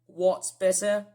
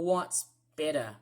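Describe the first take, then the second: First: "better" drawn out in a British accent; slow, louder British "What's better?"; British pronunciation. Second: "better" the Australian way, falling; easy Australian-accented "what's better?"; Australian pronunciation. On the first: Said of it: "British people often say the word better". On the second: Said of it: "in Australia, I say the word better". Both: Shown as a demonstration.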